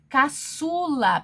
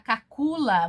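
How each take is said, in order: First: The middle consonant is an S sound. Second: The middle consonant is a K sound. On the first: The speaker calls it right. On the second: The speaker calls it wrong.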